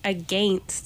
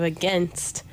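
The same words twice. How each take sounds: First: It is said in an imitated regional accent. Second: It is said in the speaker's normal accent. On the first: It mocks how the other person talks. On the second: It is how the speaker thinks it should sound.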